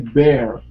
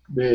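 First: It is said with an American R ending. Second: It is said without an American R ending. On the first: "In American, you would say bear" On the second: "Bear is like in British"

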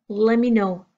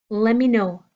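The two takes are said the same way.

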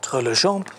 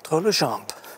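First: The name ends without a P sound. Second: The name ends with a P sound.

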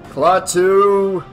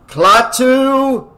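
First: It is said more quietly. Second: It is shouted loudly.

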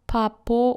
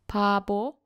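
First: It starts with p and has p in the middle. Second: It starts with p and has b in the middle. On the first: The speaker calls it wrong. "not papo" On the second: The speaker calls it right. "This word is pronounced as pabo"

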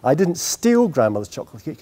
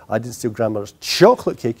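First: The stress is on "steal". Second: The stress is on "chocolate".

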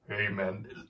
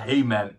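First: It is said in a put-on deep voice. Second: It is said in a normal speaking voice.

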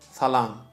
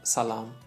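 First: The first consonant sounds like English th. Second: The first consonant is a plain s sound. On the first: This is the standard official pronunciation. "In Turkmen, S and Z, we use it with a lisp" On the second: This is how some regional dialects say it. "But some places, the people say salam"

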